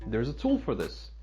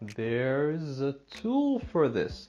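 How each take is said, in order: First: The words run together at a fast pace. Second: The words are spoken slowly and separately. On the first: This is how the language is naturally spoken. "A gente fala é, tudo junto" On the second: This is easier while still learning. "aprende a falar devagar"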